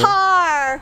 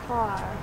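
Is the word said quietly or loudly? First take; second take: loudly; quietly. First: The word is said loudly. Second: The word is said quietly.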